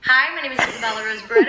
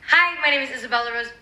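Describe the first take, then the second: First: The voice is at a much lower pitch. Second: The voice is at a higher pitch.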